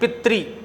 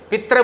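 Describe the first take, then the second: First: The word ends with a 'ri' sound. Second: The word ends with a 'ra' sound. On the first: The speaker calls it right. "इसका उच्चारण होता है पितृ, त्रि" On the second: The speaker calls it wrong. "पित्र बोल देते हैं"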